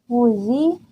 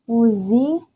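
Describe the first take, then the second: No difference in how they are said.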